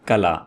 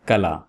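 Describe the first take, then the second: First: The first vowel sounds like 'a'. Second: The same.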